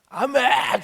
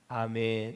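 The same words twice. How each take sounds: First: It is shouted loudly. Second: It is said very quietly, barely audible.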